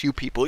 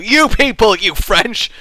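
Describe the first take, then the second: First: Said in the usual way. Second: "you people" thrown out loud and high; mock accusation. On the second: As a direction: point the finger with a hammed-up "you people".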